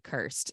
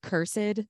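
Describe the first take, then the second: First: The word is said in an ordinary modern way. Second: The word is said in an old-fashioned way.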